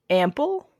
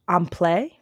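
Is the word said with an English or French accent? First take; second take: English; French. First: The word is said with a plain English accent. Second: The word is said with a French accent.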